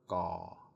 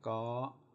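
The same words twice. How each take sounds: First: The syllable is said with a low tone. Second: The syllable is said with a high tone. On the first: "My ik is a low tone" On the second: "My three is a high tone"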